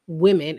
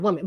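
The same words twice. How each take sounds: First: "women" as WIM-in; carefully placed "women", starting like "win"; corrected pronunciation. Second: "women" as WUM-in; "women" starting like "wood"; mistaken pronunciation. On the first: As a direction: say "women" with a careful short i first. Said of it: "working hard to say women". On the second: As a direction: say "women" with a rounded first vowel. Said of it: "instead of women". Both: Shown as a demonstration.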